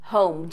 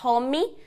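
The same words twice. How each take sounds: First: The word is said with one syllable. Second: The word is said with two syllables. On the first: The speaker calls it right. "Just one syllable" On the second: The speaker calls it wrong. "cuidado para não falar home"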